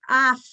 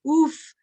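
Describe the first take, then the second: First: The word is said with an ah vowel. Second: The word is said with an oo vowel. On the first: "you have a choice of pronunciation" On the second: "you have a choice of pronunciation"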